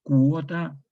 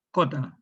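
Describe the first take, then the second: First: Said in the usual way. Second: Cota: uo reduced to o, KO-ta; popular cota. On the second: Shown as a demonstration. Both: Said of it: "En el habla popular".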